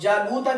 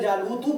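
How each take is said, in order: First: The word ends with an a vowel. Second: The word ends with a u vowel. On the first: Jalut is the one who was killed. The speaker calls it right. "जालूता की जगह" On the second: Jalut is the one who killed. The speaker calls it wrong. "जालूतू पढ़ दें"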